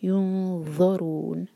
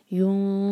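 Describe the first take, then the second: First: Slow, ज़ौ with tongue tip out and heavy; heavy zau. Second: नून hidden before heavy ज़ौ; tongue ready for the ज़ौ; ikhfa. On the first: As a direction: let the heavy ज़ौ out slowly. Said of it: "tip बाहर होती है". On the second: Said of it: "नून को इस तरह छुपाएंगे". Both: Shown as a demonstration.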